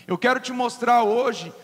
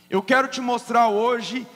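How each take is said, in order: Both takes have the same delivery.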